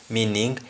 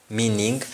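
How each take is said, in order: Both takes have the same delivery.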